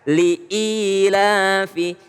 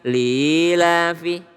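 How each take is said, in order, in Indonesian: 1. Ada jeda glotal yang jelas memisahkan li dan ilafi. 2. Li dan ilafi menyatu tanpa jeda. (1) "Jadi harus jelas" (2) "bukan lilafi"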